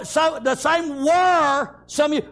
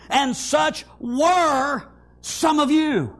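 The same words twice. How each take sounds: First: Were held long in a slowed line; slow down and lean on were; stress on were. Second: Were stretched slow and heavy; stress on were. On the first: Preacher repeats the verse to the congregation, were stressed. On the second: Preacher reads the verse to his church, slow with were stressed. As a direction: lean on were, draw the verse out. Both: Shown as a demonstration. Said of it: "underline that word, "were".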